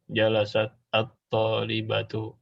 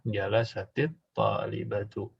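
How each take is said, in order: First: The first word ends in a bare consonant. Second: An 'i' vowel joins the two words.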